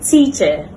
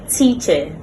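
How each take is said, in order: First: The ending is a short weak vowel. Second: The ending is a short weak vowel.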